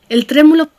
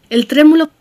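Both takes have the same delivery.

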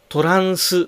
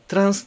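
First: Vowels are added, splitting it into several syllables. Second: It is said as a single syllable. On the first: The speaker calls it wrong. "トランスと言わないようにしてください" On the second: The speaker calls it right. "トランスで1 つの単位、1 つの音節です"

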